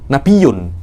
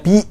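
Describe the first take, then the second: First: The y sound is doubled. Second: There is no doubled y sound. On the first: It comes from a word meaning a high place. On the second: It comes from a word meaning news. "bukan nabiyun tapi nabi"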